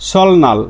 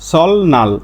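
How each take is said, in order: First: The middle is said as an l then n. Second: The same.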